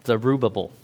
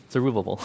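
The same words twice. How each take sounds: First: Said in the usual way. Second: Zerubbabel with a laugh breaking through; laughing at the name. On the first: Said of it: "you see this guy named Zerubbabel". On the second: Shown as a demonstration. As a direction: chuckle as you repeat Zerubbabel.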